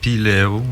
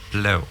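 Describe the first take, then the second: First: A vowel is heard between the P and L. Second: The P runs straight into the L. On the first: The speaker calls it wrong. "Il n'y a pas de piléo" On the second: The speaker calls it right. "On met le P collé sur le L"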